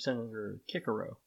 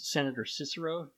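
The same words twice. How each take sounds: First: The Cs are pronounced hard, like K. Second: The Cs are pronounced soft, like S.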